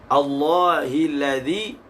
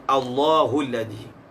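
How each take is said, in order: First: The vowel after Allah is an i sound. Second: The vowel after Allah is a u sound. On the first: This is the reading of the majority. "Jumhur membaca dengan Allahil ladzi" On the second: This is the reading of Nafi' and Ibnu Amir. "Qiraat yang membaca dengan marfu'"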